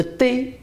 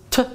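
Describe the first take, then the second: First: Said in the usual way. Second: T as a short "tuh"; T pronounced "tuh", not as the letter name; Chinese pinyin sound. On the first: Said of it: "Le T en chinois". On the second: Shown as a demonstration. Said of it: "ça se prononce T".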